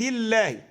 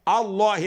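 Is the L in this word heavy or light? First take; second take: light; heavy. First: The L sound is light and thin. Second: The L sound is heavy and full. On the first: The word is joined to a preceding word. "ترقق اللام بتاعت لفظ الجلاله" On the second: The recitation starts from this word. "عند الوقف نقول ايه بقى؟ نفخم اللام"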